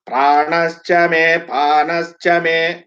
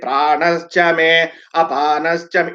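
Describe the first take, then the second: First: The words run together without an added vowel. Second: The second word is broken off with an added vowel. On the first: The speaker calls it right. "you cannot break it" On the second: The speaker calls it wrong. "they break it"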